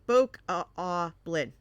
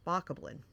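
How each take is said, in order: First: The first vowel is a long o. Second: The first vowel is a short o. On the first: The speaker calls it right. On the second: The speaker calls it wrong.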